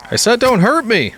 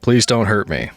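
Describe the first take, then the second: First: Exasperated, much higher; high exasperated repeat. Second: Said in the usual way. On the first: Real, not acted. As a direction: pitch jumps up on hurt.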